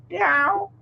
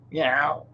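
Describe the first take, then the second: First: High playful cat meow; high teasing cat meow. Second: Said in the usual way. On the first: Pretend. Imitating the cat.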